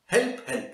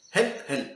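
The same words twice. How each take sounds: First: High, squawky parrot cry; squawking parrot. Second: Said in the usual way. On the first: Acted. Parrot begs the children, high squawky cry. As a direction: jump up high like a bird calling.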